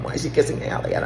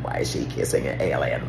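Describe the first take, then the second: First: Fast, breathy, higher alien whisper; second take, quick whisper. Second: Low, hushed alien take; first take, low and creepy. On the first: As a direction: hurry it in a thin whisper. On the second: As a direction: drop low and eerie. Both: Retold or imitated. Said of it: "Why do you sound like an alien?".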